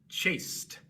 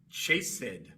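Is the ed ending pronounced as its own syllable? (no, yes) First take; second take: no; yes. First: One syllable, ending in a t sound. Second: Two syllables, with the ed ending fully voiced. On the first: This is how it is said today. "la E queda muda y la D se pronuncia como T" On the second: This is how it was said centuries ago. "Se pronunciaba tanto la E como la D"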